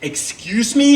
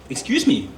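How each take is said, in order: First: It sounds accusing, as if blaming the listener. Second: It sounds apologetic, as if owning the fault. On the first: The other person is at fault. The speaker calls it wrong. "like it was my fault somehow" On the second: The speaker is at fault. The speaker calls it right. "You have to say"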